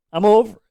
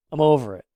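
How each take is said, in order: First: Exasperated, louder and higher. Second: Said in the usual way. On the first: Real, not acted. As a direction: throw up your hands, fed up. Repeated, second louder.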